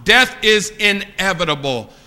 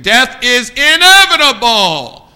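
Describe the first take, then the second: First: Said in the usual way. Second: Loud, drawn-out, higher proclamation; preacher's cry. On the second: Real, not acted. Preacher driving the point home to young people, loud preacher's cry. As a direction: thunder it out slowly. Same point repeated at full force.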